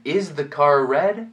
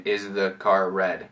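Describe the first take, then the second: First: Slow "Is the car red" rising on red; question intonation. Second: Lower, monotone "Is the car red", no rise on red; monotone question. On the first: Teacher modelling the English question, rising intonation. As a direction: ask "Is the car red", lifting red at the end. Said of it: "Em inglês fica". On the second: Teacher showing it is still understood, monotone question. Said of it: "dá para falar monotonamente". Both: Shown as a demonstration.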